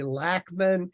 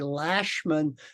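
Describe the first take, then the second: First: The 'ch' is not said as 'sh'. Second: The 'ch' is said as 'sh'. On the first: This is how the family says it in the United States. "in the United States we say Lachman" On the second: This is how the family says it in South and Central America. "The people from South and Central America say Lashman because C H in Spanish is pronounced sh"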